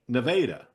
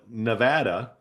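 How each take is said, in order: First: It is said with the Missouri pronunciation. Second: It is said with the western pronunciation. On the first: "here in Missouri, we call it Nevada" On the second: "people out west who call it Nevada"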